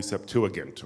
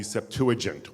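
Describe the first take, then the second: First: Septuagint said sep-TOO-uh-gint; hard g Septuagint. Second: Septuagint said sep-TOO-uh-jint; soft g Septuagint. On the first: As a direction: say Septuagint with g as in get. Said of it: "which some people call". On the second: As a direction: say Septuagint with a j sound. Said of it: "some people call the Septuagint". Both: Shown as a demonstration.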